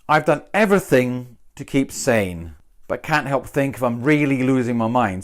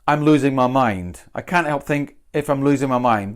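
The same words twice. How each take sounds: First: Really leaned on; weight on really, losing my mind trailing; stress on really. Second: Said in the usual way. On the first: Shown as a demonstration. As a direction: punch really in the second half. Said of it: "So I've gone for really". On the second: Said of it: "I could have just, just said".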